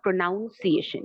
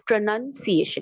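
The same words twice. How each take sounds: First: The second syllable sounds like 'noun'. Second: The second syllable sounds like 'nun'. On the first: The speaker calls it wrong. "not pronunciation, though we write n o u n" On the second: The speaker calls it right. "it becomes pronunciation"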